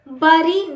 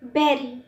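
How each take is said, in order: First: The first vowel sounds like 'but'. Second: The first vowel sounds like 'bed'. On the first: The speaker calls it wrong. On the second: The speaker calls it right.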